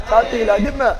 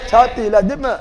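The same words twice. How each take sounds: The two takes are said the same way.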